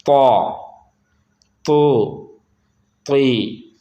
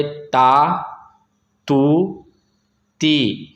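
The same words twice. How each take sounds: First: तौ, तू, ती with a thick t, long vowels; heavy letter. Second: ता, तू, ती with a light t, long vowels; thin letter. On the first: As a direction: thicken तौ, तू, ती, rounding the aw. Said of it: "इसको पढ़ेंगे मोटा". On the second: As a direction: say ता, तू, ती thin, the aa unrounded. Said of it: "बारीक पढ़ दिया". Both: Shown as a demonstration.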